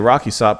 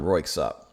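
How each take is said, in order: First: The name begins with a two-syllable 'rocky'. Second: The name begins with a one-syllable 'royk'. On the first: The speaker calls it wrong. "I always say their name wrong apparently" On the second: The speaker calls it right. "It's Royksop"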